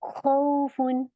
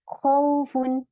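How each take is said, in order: Both takes have the same delivery.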